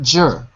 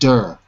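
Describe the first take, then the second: First: The word starts with a J sound. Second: The word starts with a D sound. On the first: The speaker calls it wrong. "Not jer" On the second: The speaker calls it right. "but der"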